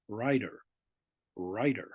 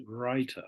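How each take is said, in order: First: RIDER, the T of writer softened to a D; American pronunciation. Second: WRITER with a crisp British T; British pronunciation. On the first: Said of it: "American English". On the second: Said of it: "Okay, British English". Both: Shown as a demonstration.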